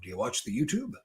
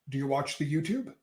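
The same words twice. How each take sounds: First: It is said in a lowered, deep voice. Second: It is said in a normal speaking voice.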